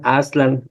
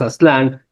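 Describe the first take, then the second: First: The stress is on the first syllable. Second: The stress is on the last syllable. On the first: This is how it was originally pronounced. "lo voy a decir todo sin agudos porque parece que así se pronunciaban" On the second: This is how it is commonly said today. "a veces decimos Aztlán"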